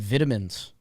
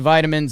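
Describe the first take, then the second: First: It is said with a British pronunciation. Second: It is said with an American pronunciation.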